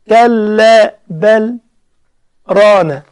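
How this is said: A brief silent stop follows bal. This is the medium or long-lengthening reading. "بل أسكت شوية كده"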